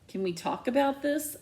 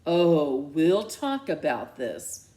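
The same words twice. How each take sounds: First: Higher, pleading with stress on about. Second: Ominous threat. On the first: Daughter pleading with her angry mom. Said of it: "I plead". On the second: Mom ominously promising a talk. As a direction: promise trouble. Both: Acted.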